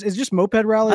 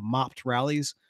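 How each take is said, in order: First: "moped" said MOH-ped, long o, two syllables; "moped rallies" with the proper moh-ped sound; corrected moped. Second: "mopped rallies" said as mopt, like mopping a floor; "mopped" with a short o, one syllable, no ay sound; misread mopped. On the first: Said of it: "I think it's moped". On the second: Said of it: "I'm dyslexic, so I first read it". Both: Real, not acted.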